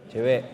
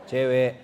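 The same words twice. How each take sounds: The two takes are said the same way.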